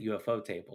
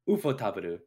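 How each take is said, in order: First: The name ends with the English word 'table'. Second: The name ends with a Japanese-style 'taburu'. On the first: The speaker calls it wrong. "They don't pronounce it UFO Table" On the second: The speaker calls it right. "do you know how they actually pronounce their name?"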